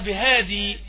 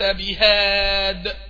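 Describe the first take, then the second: First: The word ends in a long ee vowel. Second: The word ends on a bare d sound. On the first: This is the word's original full form. "اصلها بهادي لكن الياء هنا مش موجودة" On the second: This is how the word is said when stopping on it. "وقف بالدال الساكنة"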